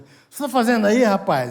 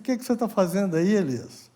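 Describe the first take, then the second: First: It is said in an angry, harsh tone. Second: It is said in a calm, gentle tone.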